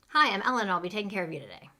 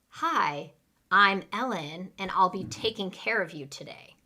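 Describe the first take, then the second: First: It is said very fast. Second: It is said at a normal pace.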